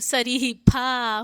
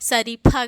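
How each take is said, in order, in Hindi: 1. आख़िरी स्वर लंबा है। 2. आख़िरी स्वर छोटा है। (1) "इसलिए यहाँ बड़ी है तो" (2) "अगर छोटी लगी होती तो ... शरीफा गलत होता"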